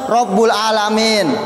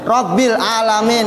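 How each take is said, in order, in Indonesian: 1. Huruf b diikuti vokal u. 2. Huruf b diikuti vokal i. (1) "seorang mengucapkan Rabbul alamin" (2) "Seharusnya di Quran apa tulisannya?"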